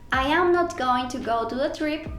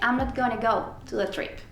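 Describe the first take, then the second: First: Every word is said in full, unreduced. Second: It uses the contracted forms I'm and gonna. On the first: "en vez de decir" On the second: "puedo decir simplemente"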